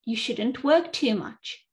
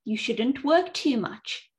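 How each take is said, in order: Both takes have the same delivery.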